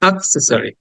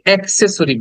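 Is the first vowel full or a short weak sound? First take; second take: weak; full. First: The first vowel is a short weak sound. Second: The first vowel is a full open sound. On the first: The speaker calls it right. "শব্দটা উচ্চারণ হবে কিছুটা আয়ের মতো" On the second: The speaker calls it wrong. "আমরা এটাকে অ্যাক্সেসরি বলি"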